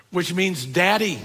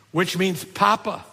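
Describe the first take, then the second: First: Daddy leaned on, falling at the end; stress on daddy. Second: Papa leaned on, ending in a rise; stress on papa. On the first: Pastor glosses Abba as daddy, falling on daddy. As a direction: land on daddy and let it fall. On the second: Pastor glosses Abba as papa, rising on papa. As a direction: lean on papa and lift it at the end. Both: Shown as a demonstration.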